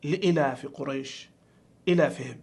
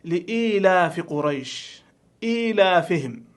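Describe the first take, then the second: First: "لإلاف قريش، إلافهم" with short i after the hamza; lower, short first vowel in "إلافهم", no long ī; misreading. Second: Slow, drawn-out long ī in "إيلافهم"; correct reading. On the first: Teacher imitating a common mistake, short i in "لإلاف". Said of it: "بعض الناس يقرأها". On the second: Teacher showing the correct verse, long ī in "لإيلاف". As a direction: recite "لإيلاف قريش، إيلافهم" slowly with long ī after each hamza. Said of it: "أولها قوله تعالى". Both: Shown as a demonstration.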